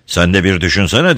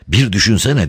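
First: Mildly whined retort; whining. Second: Higher, lightly groaned plea; moaning. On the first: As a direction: complain back with a slight whine. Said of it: "diye sızlandı Don Camillo". (hafifçe sızlanarak) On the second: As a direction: plead with a touch of a moan. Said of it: "diye inledi Peppone". (hafifçe inleyerek) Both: A narrator's reading.

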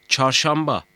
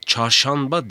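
First: "çarşamba" with m before the b; assimilated M sound. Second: "Çarşamba" with n in place of m; wrong N sound. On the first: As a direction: lips closed for the m in "çarşamba". ("çarşamba", m sesiyle) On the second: ("Çarşamba", m yerine n ile) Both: Shown as a demonstration. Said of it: "Çarşamba değil, çarşamba".

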